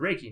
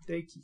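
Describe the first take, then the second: First: It is said with an American English R sound. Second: It is said with a Japanese-style flapped first consonant. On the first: "But I say Reiki for just about everybody in America knows the word Reiki now" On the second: "speaks fluent Japanese would say, it's Deiki"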